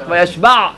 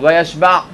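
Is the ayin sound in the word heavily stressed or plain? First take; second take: heavily stressed; plain. First: The ayin sound is pronounced with strong force. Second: The ayin sound is pronounced plainly, without force.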